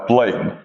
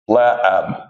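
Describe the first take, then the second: First: It is said with the usual 'ay' vowel. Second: It is said with a flatter 'a' vowel.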